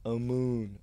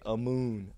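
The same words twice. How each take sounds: First: The name is drawn out in a Southern drawl. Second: The same.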